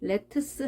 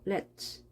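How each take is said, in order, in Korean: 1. 마지막 t와 s는 따로 발음합니다. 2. 마지막 t와 s는 합쳐져 한 소리가 됩니다. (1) "let's 하지 않고" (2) "ts 합해지면 츠 발음이 되겠죠"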